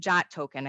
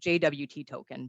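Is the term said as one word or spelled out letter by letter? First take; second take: one word; spelled out. First: The abbreviation is said as the single word 'jot'. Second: The abbreviation is spelled out as three letters. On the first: This is how people usually say it. "I think that's how it's pronounced" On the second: This is what the letters actually are. "It's J W T token"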